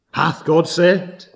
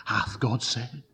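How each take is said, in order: First: Slow, louder questioning from the devil; tempter's challenge. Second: Soft, insinuating devil's question; tempter's whisper. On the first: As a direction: press the doubt harder, drawing out each word. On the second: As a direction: plant the doubt in a hushed voice. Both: Acted. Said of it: "He comes and he whispers".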